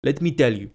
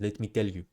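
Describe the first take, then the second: First: Said in the usual way. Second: A lightly put-on South African accent, softer. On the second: Shown as a demonstration. Coach jokingly trying out his South African accent. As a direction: say "Let me tell you" the South African way. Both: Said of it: "Okay, my South African accent".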